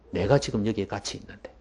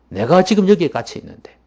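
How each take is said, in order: First: Low, softer acted reproach; understated, lowered-voice chiding; quiet rebuke. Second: Raised, louder acted reproach; higher, insistent chiding; emphatic rebuke. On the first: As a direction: say it low and restrained, as a gentle reproof. Jesus quote, first quiet take. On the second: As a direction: drive the reproof home forcefully. Jesus quote repeated with force.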